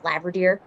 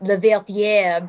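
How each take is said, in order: First: The name is pronounced the American way. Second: The name is pronounced the French way. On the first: "in American it's just" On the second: "in French pronounced"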